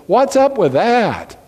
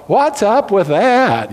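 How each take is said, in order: First: Slow, drawn out "What's up with that?" with the stress on "up", lightly voiced; a light imitation of the missionary's catchphrase; missionary Dan Weaver's catchphrase, lightly imitated; flamboyant missionary. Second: Slow, laughing, showy "What's up with that?" with the stress on "What's"; hamming up the missionary's flourish through a laugh; preacher teasingly imitating the missionary's catchphrase, flamboyant and laughing. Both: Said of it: "say it in such a flamboyant way".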